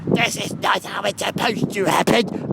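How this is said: It is done in Imperfect Cell's voice.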